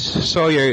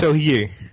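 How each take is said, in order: First: The name is said with American English sounds. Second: The name is said with its original Dutch sounds. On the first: "how it's said in the American" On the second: "It's not correctly, but okay"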